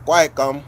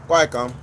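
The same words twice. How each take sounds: The two takes are said the same way.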